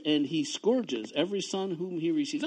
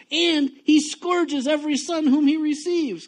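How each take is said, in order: First: Said in the usual way. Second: Reading the verse high and loud, at full force; thundering scripture reading; loud preaching read. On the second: Shown as a demonstration. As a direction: belt the verse out like a fiery preacher. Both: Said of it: "When I used to talk like this".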